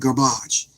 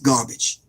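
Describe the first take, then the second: First: It is said in a put-on French accent. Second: It is said in the speaker's ordinary accent.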